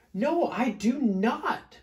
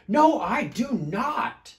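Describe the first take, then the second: First: High, slow, loud denial; storybook growled refusal. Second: Loud, high, slow refusal; storybook shout. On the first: Smelly bear arguing back, slow growly refusal. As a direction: refuse word by word, voice raised. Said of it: "growled Big Smelly Bear". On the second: Smelly bear arguing back, loud defiant shout. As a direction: shout each word in defiance. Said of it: "shouted Big Smelly Bear". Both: A narrator's reading.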